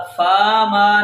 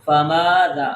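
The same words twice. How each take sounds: First: فا ما with both vowels long; wrongly lengthened. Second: فماذا with brief fa, long maa and dhaa; short first vowel. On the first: Teacher shows what to avoid, فا ما both drawn out. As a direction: stretch the first فا as well. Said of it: "نہیں کر رہے". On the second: Teacher corrects, فماذا with short fa. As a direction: stretch all but the opening of فماذا. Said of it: "فا کو لمبا نہیں کر رہے". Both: Shown as a demonstration.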